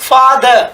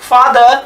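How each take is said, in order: The two takes are said the same way.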